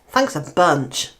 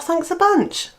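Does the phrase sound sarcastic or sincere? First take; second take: sarcastic; sincere. First: It is said in a sarcastic, negative tone. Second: It is said in a sincere, grateful tone. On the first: The speaker is not really grateful. "it's a negative and it's a sort of sarcasm thing" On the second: The speaker is genuinely grateful. "And they mean, "Thank you ever so much.""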